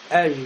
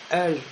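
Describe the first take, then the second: First: The final j is devoiced into an sh sound. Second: The same.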